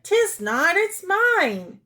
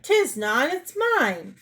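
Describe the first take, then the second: First: Put-on high, loud childish retort; shrill squabbling denial; louder contradicting. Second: Quarrelsome retort, pitch rising on mine; indignant, raised-pitch denial; contradicting. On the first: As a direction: snap back higher and louder. Wife throws same words back. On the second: Acted. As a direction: squabble back like a child.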